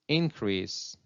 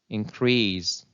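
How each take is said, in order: First: The stress is on the first syllable. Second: The stress is on the second syllable. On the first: It is used as a noun. "nouns take a stress on the first syllable" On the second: It is used as a verb. "Verbs usually take a stress on the second syllable"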